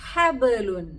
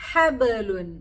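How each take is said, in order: Both takes have the same delivery.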